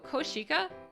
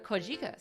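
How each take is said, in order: First: The consonant after 'ko' is a voiceless 'sh'. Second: The consonant after 'ko' is a voiced 'j'. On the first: The speaker calls it wrong. "sounds a little rough" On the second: The speaker calls it right. "sounds fine"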